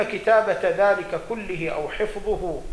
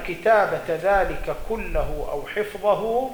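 First: كله read "kullihi", with i vowels after the lam and ha; corrected case ending. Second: كله read "kullahu", with an a vowel before the ha; misread case ending. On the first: (كله بكسر اللام والهاء: كلِّهِ) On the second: Self-corrected case ending on repeat. (كله بفتح اللام وضم الهاء: كلَّهُ) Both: Real, not acted.

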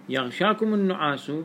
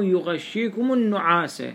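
First: يغشاكم النعاس said yaghshakumu n-nu'asu; long 'aa' in يغشاكم, 'u' ending on النعاس; subject reading. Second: يغشيكم النعاس said yughashshikumu n-nu'asa; doubled sh in يغشيكم, 'a' ending on النعاس; object reading. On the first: Teacher comparing readings, يغشاكم النعاس ending in 'u'. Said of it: "هنا يصير النعاس، آه، فاعل". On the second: Teacher comparing readings, يغشيكم النعاس ending in 'a'. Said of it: "وفي قراءتنا النعاس". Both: Shown as a demonstration.

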